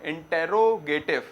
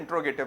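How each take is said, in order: First: The word is said in its full form. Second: The word is said in a shortened form. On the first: This follows the written spelling. "Spelling तो क्या है?" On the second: This is how most people say it. "मगर pronunciation में इंट्रोगेटिव बोला जाता है ज्यादातर"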